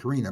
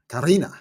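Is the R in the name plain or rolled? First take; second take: plain; rolled. First: The R is a plain English R. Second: The R is rolled with a trill. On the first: "I pronounce it Karina" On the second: "she was rolling her R"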